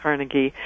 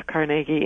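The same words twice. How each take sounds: First: "Carnegie" said CAR-nuh-gie; first-syllable stress. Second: "Carnegie" said car-NAY-gie; second-syllable stress. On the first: Linguist gives the other variant, "Carnegie" as CAR-nuh-gie. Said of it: "put the stress on the first syllable". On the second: Linguist gives one of two variants, "Carnegie" as car-NAY-gie. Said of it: "I've heard both". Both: Shown as a demonstration.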